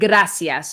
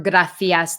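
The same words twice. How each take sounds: First: The C sounds like an S. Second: The C sounds like a TH.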